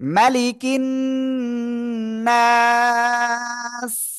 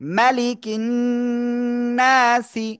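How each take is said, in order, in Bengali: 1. শেষ শব্দটি সাকিন স দিয়ে শেষ হয়েছে। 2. শেষ শব্দটি ছোট ই-স্বরে শেষ হয়েছে। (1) "আমরা থেমে যাওয়ার কারণে সাকিন হচ্ছে তাই।" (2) "সিন জের সি।"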